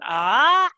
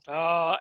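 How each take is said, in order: First: The pitch rises from mid to high. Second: The pitch dips low. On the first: "and then the rising tone" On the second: "and then the low tone"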